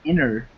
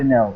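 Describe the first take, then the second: First: The name ends with an R sound. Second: The name ends with an L sound. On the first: The speaker calls it right. "It's supposed to be Inner" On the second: The speaker calls it wrong. "it's not Enel"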